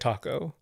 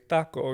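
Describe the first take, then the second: First: It is said with an English pronunciation. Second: It is said with a Spanish pronunciation. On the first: "after all these years" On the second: "you would do the right pronunciation"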